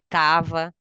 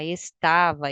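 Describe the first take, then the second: First: The first syllable is dropped entirely. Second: The word is said in full, all syllables. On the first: The speaker calls it wrong. "e não assim" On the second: The speaker calls it right. "complete a frase"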